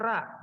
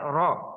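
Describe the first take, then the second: First: The r is followed by an open 'a' vowel. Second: The r is followed by a rounded 'o' vowel. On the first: This is how some regional speakers say it. The speaker calls it wrong. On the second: This is how native Arabs say it. The speaker calls it right. "ro ya, ro. Nah, R O"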